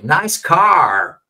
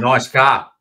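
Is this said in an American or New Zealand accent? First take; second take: American; New Zealand. First: It is said in an American accent. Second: It is said in a New Zealand accent. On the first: "como Americans dicen" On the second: "Y Kiwi dice"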